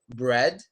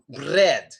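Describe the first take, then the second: First: The R sound is smooth, without rolling. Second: The R sound is rolled with the tongue. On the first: The speaker calls it right. "we still don't do it like in bread" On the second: The speaker calls it wrong. "like that, like that, rolling the R sound"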